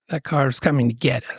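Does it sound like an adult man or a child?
adult man. It is said in his normal adult male voice.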